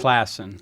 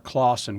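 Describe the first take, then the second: First: The first vowel sounds like the vowel in class. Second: The first vowel sounds like the vowel in cause. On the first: The speaker calls it right. "Just like it's spelled" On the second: The speaker calls it wrong. "Or Clausen"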